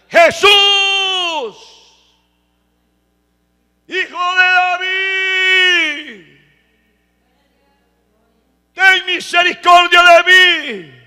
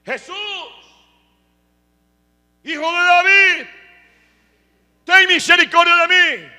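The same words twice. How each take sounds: First: High, drawn-out, full-voiced acted cry; shouting harder. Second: High, loud acted plea; crying out. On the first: Blind Bartimeo persisting in calling to Jesus, shouting harder. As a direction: stretch each plea into a huge desperate shout. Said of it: "Gritó más fuerte". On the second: Blind Bartimeo calling to Jesus for mercy, crying out. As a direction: shout for mercy like the blind beggar. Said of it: "pero empezó a gritar".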